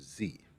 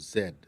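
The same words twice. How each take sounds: First: The letter is said the American way. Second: The letter is said in a non-American way.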